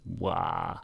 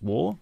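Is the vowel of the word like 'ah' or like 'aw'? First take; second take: ah; aw. First: The vowel is an open unrounded 'ah' sound. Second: The vowel is a rounded 'aw' sound. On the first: This is how American and some Australian speakers say it. "if you're American or from certain parts of Australia, it's wah" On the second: This is how speakers of English descent say it. "It's war, as in sore and raw"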